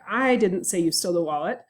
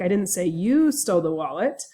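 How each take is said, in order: First: The word 'I' carries the stress. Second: The word 'you' carries the stress. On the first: Someone else said it, not me. "means that I think someone else might have said it, but it wasn't me" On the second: Someone stole it, but maybe not you. "meaning that I said someone stole the wallet, but maybe it wasn't you"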